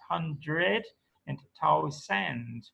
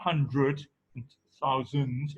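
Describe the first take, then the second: First: The unstressed vowels are full. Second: The unstressed vowels are reduced. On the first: The speaker calls it right. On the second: The speaker calls it wrong. "It's not"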